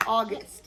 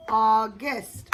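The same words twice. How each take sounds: First: Said in the usual way. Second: "August" loudly in two separate beats; broken into syllables. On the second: Shown as a demonstration. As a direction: split "August" apart: au, then gust, rising. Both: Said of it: "that's two syllables".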